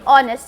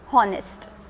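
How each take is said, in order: First: The word starts with a vowel, no h. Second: The word starts with an audible h sound. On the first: The speaker calls it right. "H is silent over here, so we say honest" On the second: The speaker calls it wrong. "and not honest"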